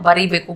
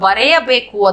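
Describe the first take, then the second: First: The first word ends with an 'ee' sound. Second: The first word ends with an 'ay' sound. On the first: This is the everyday spoken form. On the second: This is the fuller written form.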